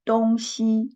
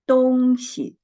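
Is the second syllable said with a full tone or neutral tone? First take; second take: full tone; neutral tone. First: The second syllable keeps its full tone. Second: The second syllable is light and toneless. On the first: It means east and west. "it means east and west" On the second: It means thing or stuff. "the second syllable, we read it the neutral tone"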